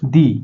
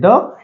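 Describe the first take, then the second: First: The word ends in a long 'ee' vowel. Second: The word ends in a short, weak vowel. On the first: The next word starts with a vowel. "दी, vowel रहेगा" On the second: The next word starts with a consonant. "आपको द बोलना पड़ेगा"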